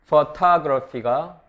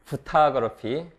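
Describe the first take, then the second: First: The first vowel is said fully and slowly. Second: The first vowel is dropped in fast speech.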